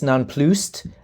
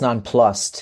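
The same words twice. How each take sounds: First: The word is given a French-sounding pronunciation. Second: The word is given a plain English pronunciation. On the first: The speaker calls it wrong. "I made it more French than it is" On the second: The speaker calls it right. "I've been recently informed it's"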